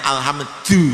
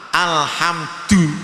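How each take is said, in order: First: The d is made with the tongue sticking out. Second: The d touches the teeth and gums. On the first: The speaker calls it wrong. "Atau keluar lidahnya alhamdu ya salah" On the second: The speaker calls it right. "maka membaca alham, alhamdu"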